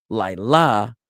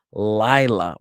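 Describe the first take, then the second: First: "Laila" with the second syllable punched louder and drawn out; stress on last syllable. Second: "Lila" with its first syllable drawn out and punched; stress on first syllable. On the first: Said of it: "with the emphasis on la". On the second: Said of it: "with the emphasis on lai". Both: Shown as a demonstration.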